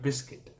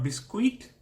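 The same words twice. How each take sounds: First: The U is silent. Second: The U is sounded as a vowel. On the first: The speaker calls it right. "Silent U" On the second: The speaker calls it wrong. "Not biscuit"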